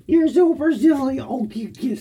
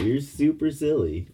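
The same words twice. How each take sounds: First: High, louder teasing coo. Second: Said in the usual way. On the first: Real, not acted. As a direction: squeal it at the dog. Repeat to dog.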